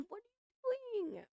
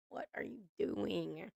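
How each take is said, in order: First: High squeaky "what are you doing" in disbelief; squealed disbelief. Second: Quiet deflated repeat. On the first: Watching Tyree on the show, high cringing squeal. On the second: Cringing at Tyree, soft deflated repeat. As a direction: drop it down, half to yourself. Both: Real, not acted.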